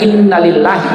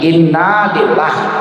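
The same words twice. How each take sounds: First: The final vowel of inna is short. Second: The final vowel of inna is lengthened. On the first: Indeed it is from God. The speaker calls it wrong. "bukan inna lillahi" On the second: Indeed we are from God. The speaker calls it right. "tapi inna lillahi. Panjang sedikit"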